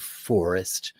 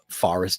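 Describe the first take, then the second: First: It is said with a General American accent. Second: It is said with a New York accent. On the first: "instead of" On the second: "like I say"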